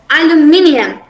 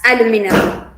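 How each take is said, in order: First: It is said with a British pronunciation. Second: It is said with an American pronunciation. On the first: "the British they pronounce it as aluminium" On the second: "the Americans as aluminum"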